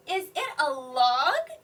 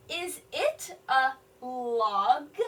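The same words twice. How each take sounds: First: A little louder, quicker rising question; question tune. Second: Slow, rising question; question tune. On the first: Teacher repeating the question more fluently, rising. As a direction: ask "log" with a clear upward lift. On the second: Teacher modeling a question for children, slow rise. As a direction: let the voice lift on "log". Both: Shown as a demonstration. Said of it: "he's asking a question".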